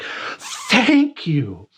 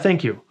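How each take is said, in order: First: It is said with intense, heartfelt gratitude. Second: It is said casually, without much feeling. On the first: Deep relief and gratitude for being saved. "Same two words, very different meaning. You want to go with the latter" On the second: Routine politeness for a small favor. "That's one way of saying thank you"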